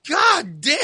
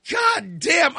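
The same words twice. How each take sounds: First: Disgusted curse. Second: Shouted curse. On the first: Reacting to stench. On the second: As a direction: bellow it at the smell. Reacting to stench again. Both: Retold or imitated.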